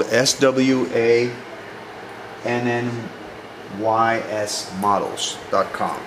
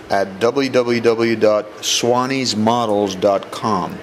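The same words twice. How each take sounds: First: S W A N N Y S read as separate letters; spelled out letter by letter. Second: Said in the usual way. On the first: Shown as a demonstration. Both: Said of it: "That's spelled".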